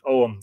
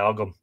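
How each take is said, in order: First: The word is said as one short syllable, 'Oum'. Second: The word is said as two syllables, 'Og-ham'. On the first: "that's how you pronounce it" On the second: "some people say Ogham"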